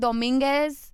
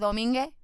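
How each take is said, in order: First: The final s sound is clearly pronounced. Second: The final s sound is left off. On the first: "instead of saying Dominguez" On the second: "he said Domingue"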